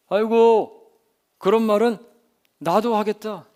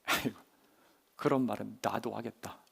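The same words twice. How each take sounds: First: Loud, higher-pitched dismissive jeer; openly mocking complaint; skeptical scoff. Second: Low, soft dismissive muttering; skeptical grumble. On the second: Acted. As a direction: grumble it under your breath, unimpressed. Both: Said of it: "이렇게 생각했을지도 몰라요".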